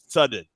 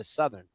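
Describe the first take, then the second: First: The 'th' and 'er' sounds are dropped or blurred. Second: The 'th' and 'er' sounds are clearly pronounced. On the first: It imitates how someone else mispronounces the name. The speaker calls it wrong. "he don't even say Southern right" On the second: It is the speaker's own correct pronunciation. The speaker calls it right. "Like it has T and a H and E and R on it"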